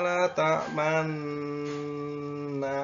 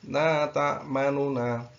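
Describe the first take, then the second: First: The doubled n is held with no vowel heard. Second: A faint short u is heard between the n sounds. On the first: "Kita ulangi ismam" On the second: "untuk raumnya"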